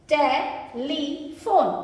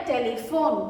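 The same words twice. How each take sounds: First: "टेलीफोन" drawn out as टे, ली, फोन; syllable by syllable. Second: Said in the usual way. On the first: Shown as a demonstration. Teacher explains each syllable's spelling, "टेलीफोन" slowly segmented. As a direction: break "टेलीफोन" into three slow pieces. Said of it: "ई के साथ एक टे". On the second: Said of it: "तो ये बन गया".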